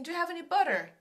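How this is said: It is said in an American accent.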